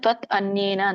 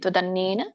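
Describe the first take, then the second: First: The words are said apart as separate words. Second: The words are merged into one continuous word. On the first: "ಬಿಡಿಸಿದಾಗ" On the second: "ಕೂಡಿ ಹೇಳಿ"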